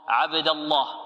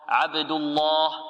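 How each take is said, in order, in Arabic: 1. اللام في الله مفخَّمة وثقيلة. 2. اللام في الله مفخَّمة وثقيلة.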